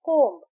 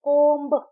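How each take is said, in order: First: The word ends on the m sound. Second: A b sound is heard at the end. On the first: The speaker calls it right. "हम कहते हैं कोम्ब" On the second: The speaker calls it wrong. "कोम्ब हम ऐसे नहीं कहते"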